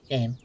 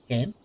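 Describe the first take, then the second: First: The word Game said lower, falling, flat; flat statement. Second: Rising call, asking; questioning call. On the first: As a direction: drop the word Game down with a final fall. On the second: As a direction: call out the word Game with a rising question tune. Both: Real, not acted.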